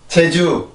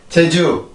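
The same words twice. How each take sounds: First: It starts with the Korean j sound. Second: It starts with the Korean j sound.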